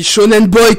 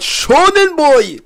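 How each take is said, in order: First: Said in the usual way. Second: Slow, higher heroic anime shout; All Might. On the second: Retold or imitated. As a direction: boom it out like a muscular manga hero. (imitation d'All Might) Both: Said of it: "comme dirait All Might".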